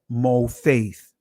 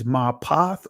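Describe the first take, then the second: First: The first vowel is a rounded 'o' sound. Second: The first vowel is an open 'a' sound. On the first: "the Israeli is" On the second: "the word for miracle in Hebrew, the ancient Hebrew, is"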